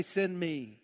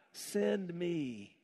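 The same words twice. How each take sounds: First: "send" pressed with a falling tune; stress on send. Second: Said in the usual way. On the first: Shown as a demonstration. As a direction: lean on "send", then drop. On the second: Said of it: "Say, "Here am I".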